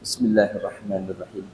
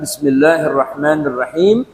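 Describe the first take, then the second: First: It is said quietly. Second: It is said loudly.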